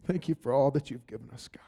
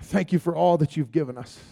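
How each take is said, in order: First: Whispered thanks, much softer; whispered prayer. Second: Said in the usual way. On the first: Real, not acted. Prayer line repeated.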